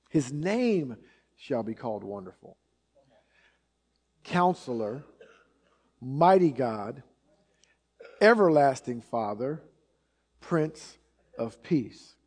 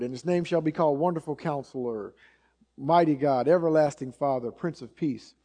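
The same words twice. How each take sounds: First: Weighty reading, long pause after each title; deliberate scripture reading. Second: Cursory recital, barely pausing between names; skipping right through. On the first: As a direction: let each name stand alone, unhurried. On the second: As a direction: run the titles together in passing. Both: Shown as a demonstration. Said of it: "sort of just skip right through it".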